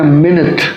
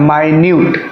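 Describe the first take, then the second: First: The first vowel sounds like the 'i' in bit. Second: The first vowel sounds like the word eye. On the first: "अब इसको हम अगर पढ़ते हैं मिनट" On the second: "और इसको पढ़ते हैं माइन्यूट"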